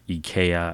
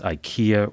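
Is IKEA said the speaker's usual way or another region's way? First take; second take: other region; usual. First: IKEA is said in another region's pronunciation. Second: IKEA is said in the speaker's usual pronunciation.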